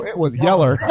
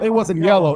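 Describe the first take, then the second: First: "yeller" with an -er ending, Southern style; Southern pronunciation. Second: Said in the usual way. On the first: Shown as a demonstration. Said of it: "I'm from the South. It wasn't yellow". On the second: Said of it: "I'm from the South".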